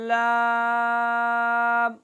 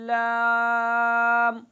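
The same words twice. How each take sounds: First: The letter name is said through the mouth. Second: The same.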